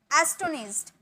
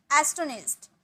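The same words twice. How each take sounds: The two takes are said the same way.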